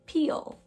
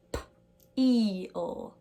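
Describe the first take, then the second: First: Said in the usual way. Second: "p-eel" split, p alone then long drawn-out eel; sounded out. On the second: Shown as a demonstration. Teacher sounding out her last example, slowly split. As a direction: pop the p, pause, stretch "eel". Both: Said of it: "That has the E E sound".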